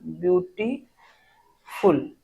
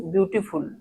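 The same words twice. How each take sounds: First: beautiful broken slowly in two, beauty, pause, फुल; beautiful in separate, drawn-out parts; syllable split. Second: Said in the usual way. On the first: Shown as a demonstration. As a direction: say beauty, wait, then फुल. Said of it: "beauty और फुल". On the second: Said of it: "ये double syllable हो गए".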